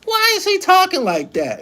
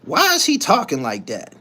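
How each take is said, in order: First: Much higher, puzzled mock voice; mock baby mom. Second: Said in the usual way. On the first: Streamer mimicking his baby mom's puzzled question, high mock voice. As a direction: pitch it way up like she asked it. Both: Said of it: "you know what she said?".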